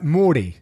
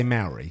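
First: "Morty" for Maori, R lightly rolled; "Morty" with a long aw and a flicked R; native-style pronunciation. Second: "Maori" as MOW-ree, UK style; "Maori" with a plain English R, no roll; British pronunciation. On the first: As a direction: say "Morty" as MAW-dee with a quick tapped R. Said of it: "You kind of roll the R a little bit". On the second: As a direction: say "Maori" with MOW rhyming with cow. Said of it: "Now, in the U K, we say Maori". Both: Shown as a demonstration.

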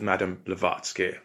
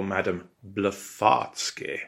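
First: Said in the usual way. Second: Blavatsky said as "Bla-FART-sky"; mocking nickname. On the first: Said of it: "or Madame Blavatsky, as we called her". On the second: A narrator's reading. Friends mocking her behind her back, Blavatsky twisted into "Bla-FART-sky". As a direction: turn the middle of Blavatsky into "fart". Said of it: "as we called her behind her back".

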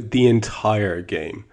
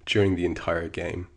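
First: "entire" drawn out slowly for emphasis; slow right down and lean on "entire"; stress on entire. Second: Said in the usual way. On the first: Real, not acted. Fan stresses how long he was frustrated, "entire" drawn out.

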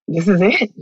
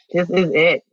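First: "This is it" lifting at the end like a question; questioning realization. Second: "This is it" falling at the end as a statement; settled realization. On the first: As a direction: let "it" rise, unsure it is over. Retold realization, first as question. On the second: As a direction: let the line drop, accepting it. Retold realization, then as statement. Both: Retold or imitated.

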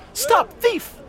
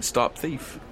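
First: Very high, loud cry of alarm; high-pitched acted shout; distant yell. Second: Muted, raised-pitch imitation of a yell; held-back mock yell; retold mild yell. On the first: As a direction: shriek it as if calling across a crowd. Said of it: "someone about fifty feet away from you yell out". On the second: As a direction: report the cry without shouting. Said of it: "looking around and yelling".

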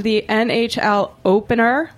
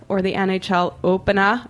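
First: Drawn-out Boston opener; Boston accent. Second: Said in the usual way. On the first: Shown as a demonstration. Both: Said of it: "as I've been calling it all day".

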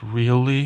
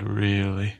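First: Surprised really. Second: Said in the usual way. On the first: Acted. Tommen surprised by Joff.

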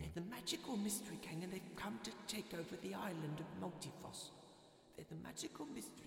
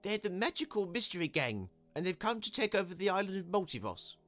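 First: Very soft, high muttering to himself; under his breath. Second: High-pitched small man's voice; announcing. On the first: Small man making sure he isn't dreaming, muttering. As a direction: repeat it quietly, fading away. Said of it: "repeated it to himself several times under his breath". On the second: Small man replying to the crowd, announcing. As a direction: report it out loud in a raised, higher voice. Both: A narrator's reading.

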